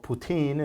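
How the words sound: The name is said with a Spanish pronunciation.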